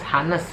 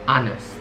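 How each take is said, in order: First: The word begins with an H sound. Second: The word begins without an H sound. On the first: The speaker calls it wrong. "masih suka membunyikan huruf H-nya" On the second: The speaker calls it right. "huruf H tidak dibunyikan, jadi silent"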